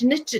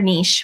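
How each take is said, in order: First: The word is said the everyday, plain way. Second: The word is said the fancier, refined way.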